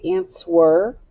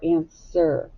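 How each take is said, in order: First: "answer" with the W pronounced, "an-swer"; sounded W. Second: "answer" with no W, "an-ser"; silent W. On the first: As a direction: read "answer" by its spelling, W and all. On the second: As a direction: drop the W in "answer". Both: Shown as a demonstration. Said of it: "the W is silent".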